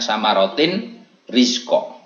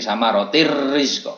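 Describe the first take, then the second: First: The n sound is pronounced before the r. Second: The n sound merges fully into the r. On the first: "tulisannya tulisannya samarotin rizko" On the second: "seolah kayak kayak tidak ada tanwin"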